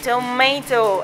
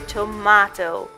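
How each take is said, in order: First: It is said in an American accent. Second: It is said in a British accent. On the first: "the Americans saying tomato" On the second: "the British with their tomato"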